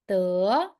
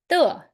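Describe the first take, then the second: First: The pitch rises from middle to high. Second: The pitch falls sharply from high. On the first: "So second one" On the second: "The last tone, that will be"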